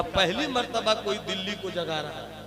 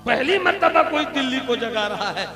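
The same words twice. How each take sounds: First: Said in the usual way. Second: Higher and louder second time, pressing it; louder repeat. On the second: Acted. Wife insists to the saint, raising her voice. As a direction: drive the repeat home with force.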